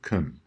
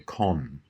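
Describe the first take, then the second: First: The vowel is a weak schwa. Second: The vowel is a full vowel. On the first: This is the typical Australian way. "instead of con" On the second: This is how some northern British dialects say it. "some dialects of Northern British English where con is said"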